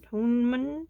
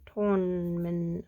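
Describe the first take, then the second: First: Toneman? asked with a questioning upward lilt; testing a made-up word. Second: Toneman. said slowly and settled, falling at the end; deciding on a made-up word. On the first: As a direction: try out Toneman? as a doubtful question. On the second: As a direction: slowly land on Toneman. as if trying it out. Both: Shown as a demonstration. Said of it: "that's definitely not a word".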